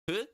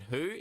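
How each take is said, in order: First: The syllable begins with an f sound. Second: The syllable begins with an h sound. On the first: The speaker calls it right. "It's fu as in food" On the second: The speaker calls it wrong. "It's not who as in who"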